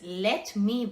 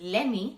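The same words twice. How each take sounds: First: The two words are said fully and separately. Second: The two words are reduced and run together.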